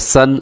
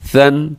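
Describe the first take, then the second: First: The s sound has a sharp whistling hiss. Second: The s sound is soft without a whistle. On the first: The speaker calls it wrong. "ऐसे नहीं पढ़ना सन, सिन, सुन, ये दुरुस्त नहीं है" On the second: The speaker calls it right. "इसमें सीटी नहीं है"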